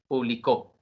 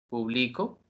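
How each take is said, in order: First: The stress is on the last syllable. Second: The stress is on the second syllable.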